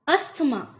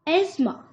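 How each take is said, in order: First: A 'th' sound is heard in the middle. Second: No 'th' sound is heard in the middle. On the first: The speaker calls it wrong. "इसका गलत जो pronunciation उच्चारण बोला जाता है वो है अस्थमा" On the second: The speaker calls it right. "The right pronunciation सही उच्चारण इसका क्या है"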